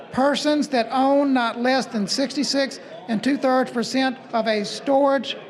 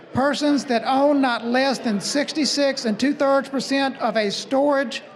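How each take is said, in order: The two takes are said the same way.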